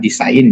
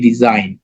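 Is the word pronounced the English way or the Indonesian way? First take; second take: Indonesian; English. First: The word is read as spelled, Indonesian style. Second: The word is pronounced like English design. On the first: The speaker calls it wrong. "bukan desain ya" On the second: The speaker calls it right. "tapi desain ya, karena dia bahasa Inggris ya"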